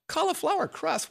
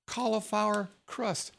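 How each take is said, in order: First: Much higher, amazed question; incredulous disbelief. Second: Said in the usual way. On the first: Retold or imitated. Telling listeners about keto pizza, high incredulous squeal. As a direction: act stunned that cauliflower crust exists. Mock disbelief at cauliflower crust.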